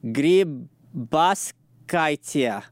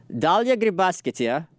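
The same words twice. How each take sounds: First: Grybauskaitė sounded out very slowly, syllable by syllable; sounding out name. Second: Dalia Grybauskaitė in one joined-up, slowish go, higher and rising at the end; attempting full name. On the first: Host tackling the Lithuanian president's surname, Grybauskaitė sounded out slowly. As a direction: draw out each piece of Grybauskaitė, with gaps between. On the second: Host trying the president's whole name, Dalia Grybauskaitė joined up and rising. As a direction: run Dalia Grybauskaitė together, pitched up like a tentative answer.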